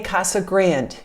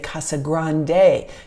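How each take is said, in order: First: Grande ends without a final vowel sound. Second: Grande ends with a pronounced final vowel. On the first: This is how locals say it. The speaker calls it right. "we say Casa Grande here in Arizona" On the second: This is how it looks from the spelling. The speaker calls it wrong. "the way it's printed, you would say Casa Grande"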